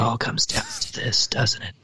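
It is said in a whisper. The speaker calls it right.

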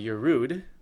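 The last word has an 'oo' vowel. The speaker calls it right. "which is a proper pronunciation"

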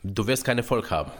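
It is said in a hard, forceful tone. The message is delivered like a blow. "Das eine war sehr hart"

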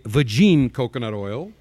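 It is said in a Borat impression.

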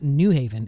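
The stress falls on the word 'New'. The speaker calls it wrong. "The emphasis is not on the word new"

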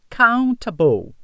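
The middle consonant is a crisp T sound. "A pronúncia mais britânica fica countable"

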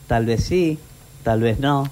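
It is said in a cheerful, happy tone.

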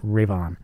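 It is run together as one word. The speaker calls it wrong. "not Rave On. Not one word"

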